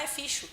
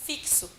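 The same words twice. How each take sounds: First: "ficho" said with a sh sound in place of ks; child's mispronunciation. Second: "Fixo" said with ks, a little higher; correct pronunciation. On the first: Retold or imitated. Teacher imitating a child reading the word wrong, "ficho" with sh. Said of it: "muitas vêm falar". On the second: Shown as a demonstration. Teacher showing the class the right way, "Fixo" with ks. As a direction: spell out the ks in "Fixo" clearly. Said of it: "se pronuncia assim".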